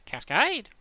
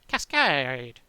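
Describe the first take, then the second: First: The pitch goes down and then up. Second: The pitch goes down and stays down. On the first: "with a falling and rising inflection, so it goes down and up" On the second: "I'd have to go down in inflection, it can't go back up"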